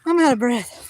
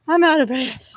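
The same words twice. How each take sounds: First: Breathless, voice dropping; panting out the words; gasping between phrases. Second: Breathless after chasing ducks; panting between words; out of breath. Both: Real, not acted.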